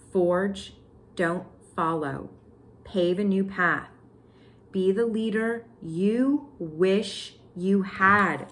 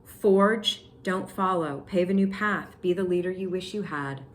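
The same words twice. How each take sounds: First: "Forge, don't follow" broken up by pauses, "you wish you had" slow word by word; emphatic repeat. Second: Said in the usual way. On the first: Shown as a demonstration. Repeating the card to viewers, "you wish you had" slow and emphatic. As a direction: stretch and separate "Be the leader you wish you had".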